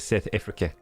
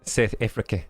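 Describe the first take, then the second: The two takes are said the same way.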